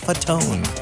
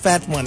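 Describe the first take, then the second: First: It is said as 'fa-tone', ending in 'tone'. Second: It is said like the two words 'fat one'. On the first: The speaker calls it right. "It's Fatone" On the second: The speaker calls it wrong. "they say Fat One. It's not Fat One"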